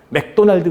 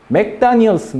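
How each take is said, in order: First: It is said with clear Korean final consonants. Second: It is said with an English-style pronunciation. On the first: "우리는 받침이 명확하니까 맥도날드" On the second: "원래는"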